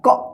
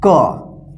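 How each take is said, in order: First: It is a bare k with no vowel. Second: It is k followed by a short a vowel. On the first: "आधा क" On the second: "पूरा क"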